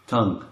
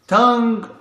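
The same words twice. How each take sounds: First: Said in the usual way. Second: Tongue said high and held; high repeat. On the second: Shown as a demonstration. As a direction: say tongue again, much higher.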